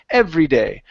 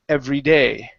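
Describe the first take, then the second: First: The stress falls on the word every. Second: The stress falls on the word day. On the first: The speaker calls it wrong. "so here you said" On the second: The speaker calls it right. "We want to say every day. Okay, and stress that end"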